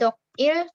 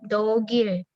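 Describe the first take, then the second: First: The two syllables are said separately, with a break. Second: The final consonant links into the next syllable. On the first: The speaker calls it wrong. "bukan 독일" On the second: The speaker calls it right. "langsung disambung"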